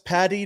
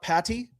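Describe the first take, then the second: First: The middle consonant is a D sound. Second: The middle consonant is a T sound. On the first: The speaker calls it right. "it's Patty" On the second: The speaker calls it wrong. "If you're saying it with T's, you're an idiot"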